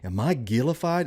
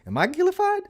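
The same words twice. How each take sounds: First: It is said at a normal speaking pitch. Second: It is said with the pitch raised high.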